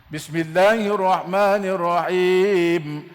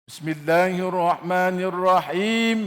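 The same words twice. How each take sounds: The two takes are said the same way.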